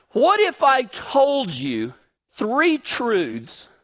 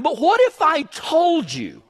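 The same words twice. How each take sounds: First: "what if I told you" drawn out very slowly; slow dramatic emphasis. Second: Said in the usual way. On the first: Shown as a demonstration. Preacher to congregation, slow dramatic build. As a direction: lean in and slow right down. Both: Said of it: "restated slower".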